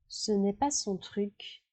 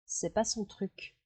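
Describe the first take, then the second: First: The negative 'ne' is pronounced in full. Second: The negative 'ne' is left out entirely.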